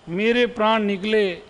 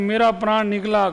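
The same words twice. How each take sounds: First: Said in the usual way. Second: Quick quoted मेरा प्राण निकला said as the mistake; quick mocking quote of the wrong usage; wrong form quoted. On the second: Shown as a demonstration. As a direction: toss off मेरा प्राण निकला fast, as a common error. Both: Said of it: "गलत है".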